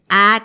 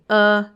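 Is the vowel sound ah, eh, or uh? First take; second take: ah; uh. First: An open ah vowel. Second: A neutral uh vowel from the throat. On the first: The speaker calls it wrong. "No dices, ah" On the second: The speaker calls it right. "Ese uh que sale desde la garganta es una schwa"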